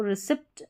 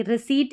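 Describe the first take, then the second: First: "रिसिप्ट" with an audible p before the t; wrong pronunciation, P sounded. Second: "रिसीट" with long ee and no p; "रिसीट" ending in a plain ee-t; correct pronunciation, silent P. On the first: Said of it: "इसको रिसिप्ट नहीं पढ़ेंगे". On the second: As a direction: drop the p, saying "रिसीट". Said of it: "इसका उच्चारण सही है". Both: Shown as a demonstration.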